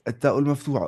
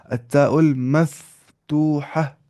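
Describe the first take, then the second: First: Said in the usual way. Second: Drawn-out syllables, a pause within; slow, measured dictation; slow model pronunciation. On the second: Shown as a demonstration. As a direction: say it slowly for learners to copy. Term modelled slowly after question.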